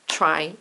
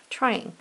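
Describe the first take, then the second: First: "Trying" pulled apart as try, ing; split into syllables. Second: Said in the usual way. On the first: Shown as a demonstration. Teacher tests for two syllables, splitting "Trying" in two. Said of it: "I bet that has two syllables". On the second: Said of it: "I'm gonna write the word trying".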